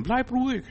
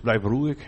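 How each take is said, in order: First: „Bleib ruhig“ hoch und leiser gesetzt; „Bleib“ hoch angesetzt, sanft fallend; emphatic motto. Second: Said in the usual way. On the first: Shown as a demonstration. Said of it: "Ist mein Thema". (das Motto eindringlich und leiser vorgetragen) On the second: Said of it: "Nur zwei Worte".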